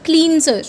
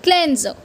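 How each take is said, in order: First: Cleanser as cleen-ser; the mistaken cleanser; wrong way. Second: Cleanser as klen-zer; the correct cleanser. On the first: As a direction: say cleanser with a long ee. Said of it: "People say it cleanser". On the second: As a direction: say cleanser with a short e and z. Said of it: "It's cleanser". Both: Shown as a demonstration.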